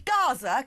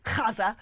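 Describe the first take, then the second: First: "Gaza" with a hard English G; plain British "Gaza", no throaty sound at the start; British pronunciation. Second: "Gaza" with a throaty kh for the G; mockingly pseudo-Arabic "Gaza", rasped at the back of the throat; mock Arabic pronunciation. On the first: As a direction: say "Gaza" as GAH-za. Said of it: "'cause it's Britain". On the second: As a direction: scrape the start of "Gaza": KHAH-za. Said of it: "weird pseudo-Arabic action, uh, accent". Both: Shown as a demonstration.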